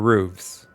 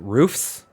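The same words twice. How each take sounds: First: The word ends with a v sound. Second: The word ends with an f sound. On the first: "or hooves? It's hooves" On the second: "Is it hoofs"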